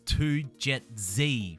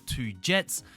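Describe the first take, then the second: First: The ending is said as two letters, jay zee. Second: The ending is said as one word, jets. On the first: The speaker calls it right. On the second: The speaker calls it wrong.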